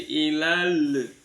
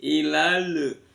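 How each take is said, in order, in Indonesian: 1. Huruf l terakhir dilepas dengan vokal yang terdengar. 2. Huruf l terakhir dilepas dengan vokal yang terdengar.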